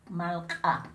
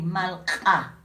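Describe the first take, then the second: First: Malca, k popped hard as an ejective; malca with apostrophe. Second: Malca with a popped ejective k; malca with apostrophe. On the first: Teacher repeats malca for students, glottal k. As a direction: catch the throat on the k of malca. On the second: Teacher showing the apostrophe k in malca, clipped ejective. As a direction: snap the k of malca with a glottal catch. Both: Shown as a demonstration. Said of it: "cuando tiene apóstrofo es".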